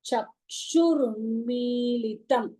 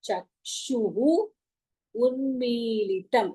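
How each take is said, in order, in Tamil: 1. இரண்டு வார்த்தைகளும் ஒன்றாகச் சேர்ந்து சொல்லப்படுகின்றன. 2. இரண்டு வார்த்தைகளும் தனித்தனியாகப் பிரித்துச் சொல்லப்படுகின்றன.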